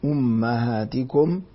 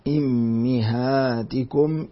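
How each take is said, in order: First: The first vowel is u, the second a. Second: The first vowel is i, the second i.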